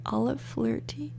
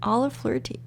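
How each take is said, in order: First: Softly whispered name. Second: Said in the usual way. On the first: Shown as a demonstration. Vlogger testing a baby name, whispering. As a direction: breathe the name out to try it. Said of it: "repeated whispered". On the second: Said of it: "whisper repetition".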